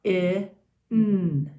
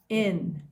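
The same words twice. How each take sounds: First: Short i, pause, then a long held n; sounding out. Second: Said in the usual way. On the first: Shown as a demonstration. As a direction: say I and N as separate loud sounds. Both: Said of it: "Let's sound it out".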